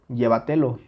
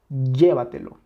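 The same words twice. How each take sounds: First: The first syllable lacks its strong stress. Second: The first syllable carries strong stress. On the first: The speaker calls it wrong. "Si le quitamos esa intensidad, sería" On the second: The speaker calls it right. "Claramente está aquí"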